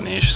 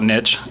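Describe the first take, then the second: First: It is said the Canadian way. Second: It is said the American way.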